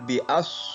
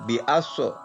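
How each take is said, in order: First: The consonant stops cleanly without any bounce. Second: The consonant is released with a bouncing echo. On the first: The speaker calls it right. "Yang betul bi'as" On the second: The speaker calls it wrong. "Ada sebagian anak yang membaca bi'aso"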